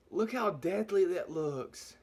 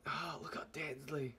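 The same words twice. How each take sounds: First: Said in the usual way. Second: Awed whisper at the pepper. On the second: Real, not acted. Vlogger whispering at the scary pepper. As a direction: breathe it out, voiceless and hushed. Repeats the line in awe.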